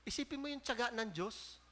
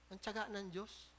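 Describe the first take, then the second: First: Said in the usual way. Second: "tiyaga" lingered on, much softer and slowed; slow, soft stress on tiyaga. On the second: Shown as a demonstration. Preacher to the congregation, repeating "tiyaga" slowly and softly.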